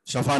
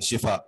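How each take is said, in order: First: The first vowel is a short 'a'. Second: The first vowel is a short 'i'. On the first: It would mean the edge of a pit. The speaker calls it wrong. "शफा शफा नहीं पढ़ते" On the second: It means healing. The speaker calls it right. "शिफा पढ़ना चाहिए"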